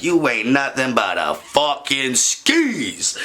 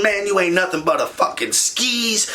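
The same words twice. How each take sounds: First: In her face. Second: Raised, higher angry telling-off; going off. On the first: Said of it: "I get up in her face". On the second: Yelling at his cheating girlfriend in a raised angry voice. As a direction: let her have it, voice pitched up. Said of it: "I am going off". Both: Retold or imitated.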